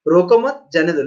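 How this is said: The pause comes after the word mat. Let him go; don't stop him. "रोको मत, comma है जाने दो"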